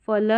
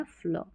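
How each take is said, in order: First: 'फल' said as two separate sounds, f with its vowel, then l; unblended mispronunciation. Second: 'फ्ल' as one sound, no vowel between f and l; blended pronunciation. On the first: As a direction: give f its full vowel in 'फल'. ('फल' में फ और ल अलग बोलें) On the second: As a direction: join f tightly to l in 'फ्ल'. ('फ्ल' को मिलाकर, आधे फ से बोलें) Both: Shown as a demonstration. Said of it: "फल नहीं पढ़ना है".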